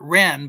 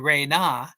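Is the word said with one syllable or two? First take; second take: one; two. First: The word is said as one syllable. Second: The word is said as two syllables. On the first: This is how another scholar reads it. The speaker calls it wrong. "he pronounces it Ren" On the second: This is the proper reading of the symbols. The speaker calls it right. "it really should be Re-Na"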